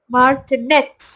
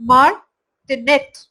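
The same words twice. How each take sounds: First: मार्टिनेट with the weight on the capitalised syllable; stress demo. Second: मार्टिनेट said slowly with the capitalised syllable stressed; slow stress demo. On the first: Teacher shows stress on the capitals, careful model. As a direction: lean on the stressed part of मार्टिनेट. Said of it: "caps lock में ... ज्यादा जोर देना है". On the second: Teacher repeats the word to fix it, slow. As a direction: lean on the stressed part of मार्टिनेट, slower. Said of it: "तो इसको ... बोला जाएगा". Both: Shown as a demonstration.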